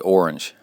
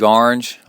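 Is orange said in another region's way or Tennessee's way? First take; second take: other region; Tennessee. First: It is said with another region's pronunciation. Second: It is said with a Tennessee pronunciation. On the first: The speaker is from another part of the country. "and then other people say orange" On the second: The speaker is from Tennessee. "if you're from uh, Tennessee, you say, well, Big Orange"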